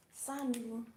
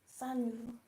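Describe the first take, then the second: First: "Salut" as sa-loo, silent t; French salut. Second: "Salut" as sa-loo, final t dropped; French salut. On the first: Teacher modelling "Salut" for friends and family. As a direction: say "Salut" cleanly as a casual hi. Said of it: "You say salut". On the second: Teacher repeating "Salut" for learners to copy. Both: Shown as a demonstration.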